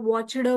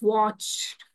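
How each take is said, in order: First: The ending is said as an extra 'd' syllable. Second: The ending is a short sound with no 'd'. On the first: The speaker calls it wrong. "आता बरेच जण याला watched म्हणतात" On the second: The speaker calls it right. "ड नेहमी silent असणार आहे इथे"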